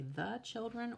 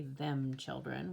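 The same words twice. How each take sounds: First: Put-on "the children" with a higher lift on "children"; teacher offers "the children" with a high lift; correct word offered. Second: Put-on "them children" with "them" stressed, slow; slow stress on "them" as the wrong choice; stressed wrong word. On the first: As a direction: offer "the children" brightly as the fix. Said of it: "We can say". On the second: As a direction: mark "them" as the mistake, slowly. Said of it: "We don't say". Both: Shown as a demonstration.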